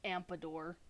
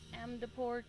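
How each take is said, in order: First: The name is said with m-p-d order. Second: The name is said with m-d-p order. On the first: The speaker calls it wrong. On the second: The speaker calls it right.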